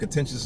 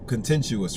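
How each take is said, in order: First: The ending is a single 'shus' sound. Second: The ending is split into separate 'you-us' sounds. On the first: The speaker calls it right. "contentious is the correct way to say it" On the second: The speaker calls it wrong. "I said that word incorrect"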